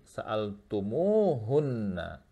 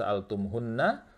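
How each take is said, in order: First: The m gets a long u vowel before hunna. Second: The m runs straight into hunna, no vowel. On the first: The speaker calls it right. "munya dipanjangkan dua harokat" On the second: The speaker calls it wrong. "tidak dibaca wa idza sa'altum hunna"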